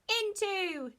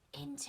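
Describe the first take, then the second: First: The word is shouted loudly. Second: The word is whispered quietly.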